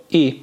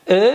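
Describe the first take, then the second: First: "ای" as a clear front ee vowel; clear i sound. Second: I said as a short unrounded back vowel, unlike "ای"; Turkish ı sound. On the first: Teacher contrasting ı and i for students, clear ee in "ای". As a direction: say "ای" apart from "ا". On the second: Teacher contrasting ı and i for students, clear vowel demo of "ا". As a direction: say "ا" clearly apart from "ای". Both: Shown as a demonstration. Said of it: "تلفظ ا و ای رو".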